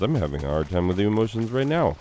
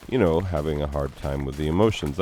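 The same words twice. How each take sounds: First: Real emotion breaking through, fast and higher; choked-up teacher admitting grief in front of class. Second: Said in the usual way. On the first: Real, not acted. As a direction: rush the words, fighting back real grief.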